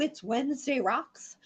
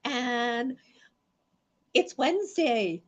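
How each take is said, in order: First: Said in the usual way. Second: Slow, high, loud announcing; excited announcement. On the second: Real, not acted. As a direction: draw it out like a show opener. Show opener announcement.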